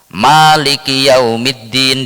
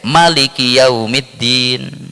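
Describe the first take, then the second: First: The first vowel of maliki is drawn out long. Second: The first vowel of maliki is kept short.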